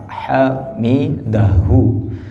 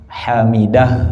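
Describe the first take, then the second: First: The word ends with an audible u vowel. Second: The word ends with a final h sound.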